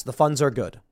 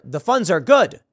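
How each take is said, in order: First: The funds are good. falling flat at good as a plain answer; mild sheepish confirmation. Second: The funds are good? rising up at good like a puzzled query; incredulous rise on good; doubtful question. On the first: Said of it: "the manager goes". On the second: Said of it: "a random person have to then go". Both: Retold or imitated.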